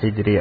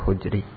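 First: The first vowel is i. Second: The first vowel is u. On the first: "harakat ha ini bisa dibaca tiga-tiganya" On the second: "harakat ha ini bisa dibaca tiga-tiganya"

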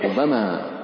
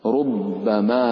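First: The b sound is single and short. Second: The b sound is doubled and held longer. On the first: This is the reading of Asim, Nafi and Abu Jafar. "فخففوا ربما" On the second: This is the reading of most other readers. "ربما بالتشديد"

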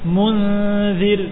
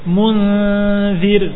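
Both takes have the same delivery.

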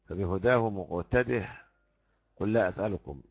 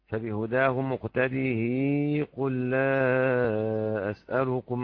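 First: The final h is dropped before the next word. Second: The final h carries a lengthened i vowel. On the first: "اللي هيحذف الهاء دي وصلا" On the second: "له الإشباع"

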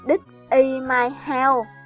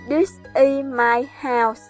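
First: The final consonants are left off the words. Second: The final consonants are pronounced normally. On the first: The speaker calls it wrong. "người Việt mình thường quên phụ âm cuối" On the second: The speaker calls it right. "kiểu như This is my house thành"

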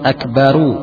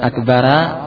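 First: The word ends with an added 'u' vowel. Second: The word ends with an added 'a' vowel. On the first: The speaker calls it right. "Cara menyambungnya dengan akbaru" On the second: The speaker calls it wrong. "bukan akbara"

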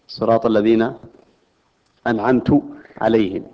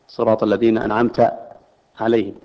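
First: The t in anamt is followed by u. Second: The t in anamt is followed by a. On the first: The speaker is the one who grants favor. The speaker calls it wrong. "أنه يصبح المنعم هو المتكلم القارئ" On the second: A male addressee is the one who grants favor. The speaker calls it right. "هي بالفتح بصيغة الخطاب"

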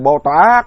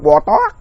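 First: It is said in a Hue accent. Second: It is said in a Quang Nam accent. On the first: "Huế thì Bồ Tát" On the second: "Quảng hơn đọc Bò Tót"

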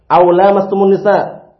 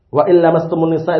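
First: The phrase begins with the sound 'aw'. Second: The phrase begins with the sounds 'wa illa'. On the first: The speaker calls it right. "yang benar adalah" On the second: The speaker calls it wrong. "itu keliru ya"

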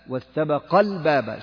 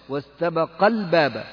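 No difference in how they are said.

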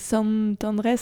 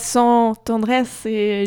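First: The first word sounds like Spanish 'San'. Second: The first word sounds like French nasal 'sans'. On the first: It is a saint's name for a place. The speaker calls it right. "c'est San Andrés" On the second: It means without Andrés. The speaker calls it wrong. "C'est pas San Andrés"

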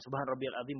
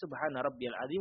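First: The phrase is recited quickly and hurriedly. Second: The phrase is recited slowly and evenly. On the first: The speaker calls it wrong. "bukan seperti itu" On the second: The speaker calls it right. "itu sudah teranggap sebagai takaran at-tuma'ninah"

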